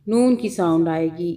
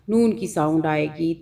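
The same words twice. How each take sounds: The two takes are said the same way.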